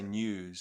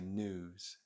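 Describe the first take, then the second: First: It is said in a New Zealand accent. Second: It is said in an American accent. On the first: "we say news" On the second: "Americans say news"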